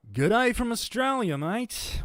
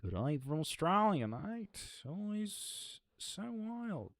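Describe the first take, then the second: First: Loud, high hammed-up Australian accent. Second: Light Australian drawl, high and stretched; lightly put-on Australian, tune rising on mate; Australian accent. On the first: Streamer shows off the accent card to chat, in a broad Australian accent. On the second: Streamer reading a chat message, in a light Australian accent. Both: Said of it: "the Australian accent card".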